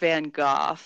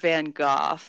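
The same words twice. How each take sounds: First: The name is said the European way. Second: The name is said the European way.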